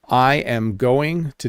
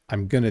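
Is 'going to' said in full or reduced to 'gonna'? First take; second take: full; reduced. First: Each word is said fully and separately. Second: The words are contracted and reduced to I'm gonna. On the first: This is the formal, structured way to say it. "the most correct way to say it" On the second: This is the common, informal way to say it. "The quick way to do it, ... I went to gonna"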